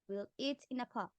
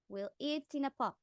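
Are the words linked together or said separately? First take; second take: linked; linked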